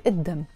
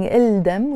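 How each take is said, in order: First: الدم with a silent L, id-dam; الدم the right way, id-dam; correct pronunciation. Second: الدم with the L sounded, il-dam; الدم the wrong way, il-dam; wrong pronunciation. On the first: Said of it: "we say الدم". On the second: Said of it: "Instead of saying الدم". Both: Shown as a demonstration.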